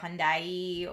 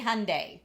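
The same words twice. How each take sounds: First: The name does not end like Sunday. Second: The name ends like the word Sunday. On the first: This is how it is said in other countries. "in other places it's like Hyundai" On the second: This is the official American pronunciation. "think Sunday, Monday, Hyundai"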